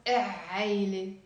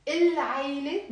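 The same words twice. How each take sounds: First: عيلة after a drawn-out e, no l; lam left silent. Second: العيلة with a clear l in the article, il-; lam pronounced. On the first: Teacher offering wrong option number two, lam silent before عيلة. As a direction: stretch an e into عيلة, dropping the article's l. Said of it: "ما بنلفظ اللام". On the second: Teacher offering option number one, lam sounded in العيلة. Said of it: "we pronounce the lam". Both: Shown as a demonstration.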